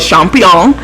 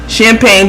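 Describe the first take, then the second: First: The word is pronounced in a silly, playful way. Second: The word is pronounced the standard way.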